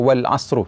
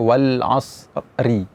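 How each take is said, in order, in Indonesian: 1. Huruf r terakhir diikuti vokal u. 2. Huruf r terakhir diikuti vokal i. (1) "tidak demikian" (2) "Misalnya wal asri"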